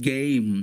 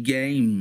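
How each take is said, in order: The two takes are said the same way.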